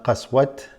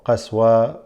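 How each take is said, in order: First: The word ends with a t sound. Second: The word ends in silence after the vowel. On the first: "not qaswat" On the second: "or qaswa where you just stay quiet"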